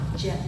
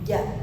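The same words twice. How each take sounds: First: The j sound has a ch-like quality. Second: The j sound is clear without ch quality. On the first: The speaker calls it wrong. "Yang salah ja" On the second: The speaker calls it right. "Yang betul ja. Jelas, nggak ada C-nya"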